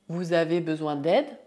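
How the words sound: The voice rises at the end. It is a question.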